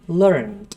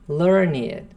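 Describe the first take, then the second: First: The word is said as one syllable. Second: The word is said as two syllables. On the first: It is the past form of the verb. "esse som, porque é verbo" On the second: It describes a scholarly, well-read person. "um adjetivo"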